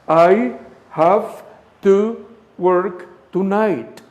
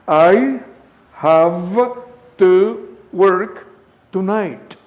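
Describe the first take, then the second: Both takes have the same delivery.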